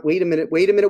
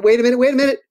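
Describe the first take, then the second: First: Said in the usual way. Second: Louder and higher, suddenly got it; blurting it out as the idea lands; excited realization. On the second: Real, not acted. Author suddenly remembers a book for Julian, excited. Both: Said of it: "I got one".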